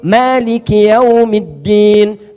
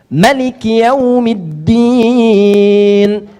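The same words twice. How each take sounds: First: The first vowel of Maliki is long. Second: The first vowel of Maliki is short. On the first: "Hafs, hafs dari Asim" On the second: "qalun warsh dari Nafi' membaca dengan pendek"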